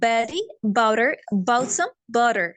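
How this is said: It has flapped Ts and lightly pressed Bs.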